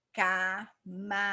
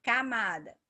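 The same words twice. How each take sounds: First: "camada" broken into ca... ma... da, loud and slow; syllable by syllable. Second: Said in the usual way. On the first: Shown as a demonstration. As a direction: say "camada" with a gap after each syllable. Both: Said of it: "Três sílabas".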